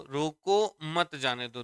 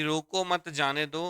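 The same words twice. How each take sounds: First: Slow, drawn-out "रोको", then "मत जाने दो"; pause after रोको. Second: "रोको मत" run together, then "जाने दो"; group रोको with मत, then say जाने दो; pause after मत. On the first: Teacher reading the contrasting example to students, pause after रोको. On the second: Teacher reading the first example line to students, pause after मत. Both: Shown as a demonstration. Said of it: "कौमे से देखो यहाँ भाव change हो गया".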